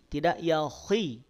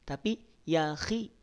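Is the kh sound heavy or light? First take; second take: heavy; light. First: The kh sound is heavy and thick. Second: The kh sound is lighter and thinner. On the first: The speaker calls it wrong. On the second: The speaker calls it right. "dia ketebalannya berkurang"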